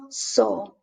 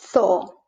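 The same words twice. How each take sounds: First: Zoo said as "so"; Z of zoo as S, with a Spanish O; Latin American S. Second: Zoo said as "tho"; Z of zoo as TH, with a Spanish O; Spain's TH. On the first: Teacher showing learners zoo with Latin American S. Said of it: "in Latin America". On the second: Teacher showing learners zoo with Spain's TH. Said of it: "which in Spanish is theta". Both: Shown as a demonstration.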